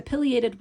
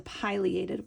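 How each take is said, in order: First: Pileated as "PILL-ee-ay-tid"; short-i pileated. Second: Pileated as "PIE-lee-ay-tid"; long-i pileated. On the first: Teacher showing both ways of saying it, short-i pileated. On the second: Teacher showing both ways of saying it, long-i pileated. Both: Shown as a demonstration. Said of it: "both ways of saying it make sense".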